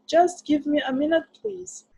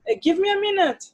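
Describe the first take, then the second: First: Higher, softened please trailing off; polite reply. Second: Blunt eh, give me a minute, pitch up; curt reply. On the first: Anne politely asking her friend to wait. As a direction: ask nicely for a moment. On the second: Anne answering her friend bluntly, without please. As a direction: brush them off bluntly. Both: Shown as a demonstration. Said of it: "en lugar de que responda".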